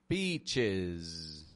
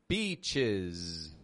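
No difference in how they are said.

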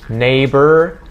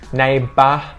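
First: The word ends with a curled R sound. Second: The word ends with an open vowel, no R. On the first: "That is a very American sound with that R sound" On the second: "We drop the jaw and we keep our tongue flat"

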